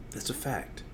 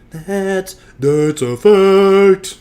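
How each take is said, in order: First: Very soft, offhand statement; quiet aside. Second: Loud, high, hugely drawn-out mock declaration; hammed-up proclamation. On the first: Pretend. Host confirming his promise to record, quietly. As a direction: say it far under the usual level. First take of repeated catchphrase. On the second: Host repeating his own catchphrase, hammed-up loud. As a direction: stretch each word slowly and blare it out.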